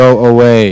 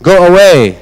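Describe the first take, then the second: First: It is said calmly, without shouting. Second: It is shouted loudly and forcefully.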